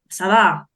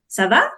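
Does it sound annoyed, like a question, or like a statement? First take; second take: annoyed; question. First: It is said in a weary, irritated tone. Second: The pitch rises at the end, asking. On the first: The speaker is tired of the listener. "c'est bon, tu commences à me fatiguer" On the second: The speaker is asking how someone is. "soit tu es en train de poser une question"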